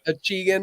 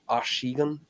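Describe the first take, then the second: First: The name is given an anglicized pronunciation. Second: The name is given a French pronunciation. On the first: This is the form the brand chose to use. "we put a little redneck spin on it, you know. So it's Achigan is the way uh, we pronounce it" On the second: This is the technically correct original form. "technically in French it's pr- pronounced Achigan"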